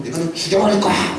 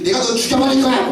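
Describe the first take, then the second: First: A hint of a vicious snarled threat; cursing threat. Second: Higher, hammed-up threatening yell; mock villainess threat. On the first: Jezebel cursing Elijah with a mild snarled threat. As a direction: spit the threat like a furious queen. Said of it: "막 욕하면서 막". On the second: Teacher mocking a woman's threat to shame the boys. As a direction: shout the threat like a cartoon villainess. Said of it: "여자가 막 이렇게".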